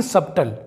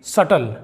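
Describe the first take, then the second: First: सबटल said "sab-tal" with B before T; B sounded. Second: सटल said "satal" with no B; silent B. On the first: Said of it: "ना कि". (सबटल में ट से पहले ब बोलें) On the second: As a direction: go straight to the T in सटल. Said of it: "इसे हम पढ़ेंगे". (सटल में ब silent) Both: Shown as a demonstration.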